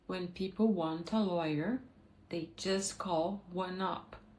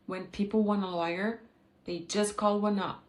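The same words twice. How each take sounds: First: Each word is said separately and fully. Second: The words are fast, linked, with dropped consonants.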